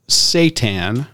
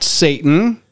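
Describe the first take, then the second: First: It does not sound like the name Satan. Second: It sounds like the name Satan. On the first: The word names a wheat protein. The speaker calls it right. "the actual word for the type of protein pronounced Satan" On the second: The word names the Prince of Darkness. The speaker calls it wrong. "not Satan. Not the Prince of Darkness"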